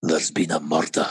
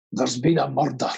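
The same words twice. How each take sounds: First: Very deep, close-mic Scottish growl; Scottish Taggart catchphrase. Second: Low Scottish detective line, rolled "murder"; Scottish Taggart catchphrase. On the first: Actor performing on request at the mic, very deep Scots. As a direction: drop right down into the microphone, broad Scots. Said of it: "I'll do it the microphone". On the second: Scottish actor obliging fans with Taggart line, low Scots. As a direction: intone it gravely in broad Scots. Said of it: "sounds so much better in a Scottish accent". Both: Acted.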